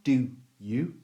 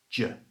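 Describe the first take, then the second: First: Both words are said fully and separately. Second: The words merge into one short j sound. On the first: The speaker calls it wrong. "So it's not do you" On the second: The speaker calls it right. "it's just j"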